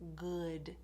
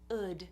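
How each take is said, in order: First: The word starts with a g sound. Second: The word starts with a vowel, no w sound. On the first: "put a g in there instead of a W sound" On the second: "some people don't do the W at all"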